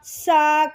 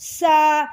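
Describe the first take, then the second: The two takes are said the same way.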